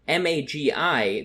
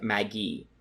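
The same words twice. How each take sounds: First: It is said with an anglicized English pronunciation. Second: It is said with a classical Latin pronunciation. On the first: "the American anglicized Latin" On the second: "in classical Latin ... would be pronounced as something like magi"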